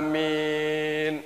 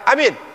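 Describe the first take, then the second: First: The first vowel is drawn out long. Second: Both vowels are kept short. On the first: It means I agree. "Kalau alifnya di depan panjang, lalu ketemu dengan ya" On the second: It means make it safe. "Kalau alifnya pendek, kalau enggak panjang dengan ya, ya-nya enggak panjang"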